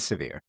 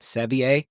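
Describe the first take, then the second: First: The name is said plainly, like the word severe. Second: The name is said in a fancy, affected way. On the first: This is how locals say it. "but it is severe. That's what they say" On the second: The speaker is being playfully pretentious. "I prefer to pronounce it much more pretentiously and call it Sevier"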